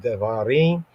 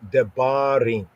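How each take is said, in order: First: The middle consonant sounds like a soft v. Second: The middle consonant is a fully enunciated b. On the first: "like a soft B that may sound like a V" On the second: "but more fully enunciated"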